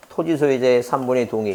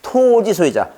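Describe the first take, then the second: First: Bland, unstressed run through 토지 소유자의; 토지 소유자의 recited without emphasis; flat reading. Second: 토 in 토지 소유자 drawn out high; memorable emphatic reading. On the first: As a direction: read 토지 소유자의 evenly with no stretched syllable. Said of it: "이렇게 밋밋하게 읽으면 머릿속에 안 들어옵니다". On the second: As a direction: chant a long, high 토, then drop through 지 소유자. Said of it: "이렇게 읽어야 됩니다". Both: Shown as a demonstration.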